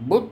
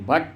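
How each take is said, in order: First: The vowel sounds like the one in put. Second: The vowel sounds like the one in cut. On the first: The speaker calls it wrong. "బియుటి బుట్ అనకూడదు" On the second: The speaker calls it right. "బియుటి బట్ అనాలి"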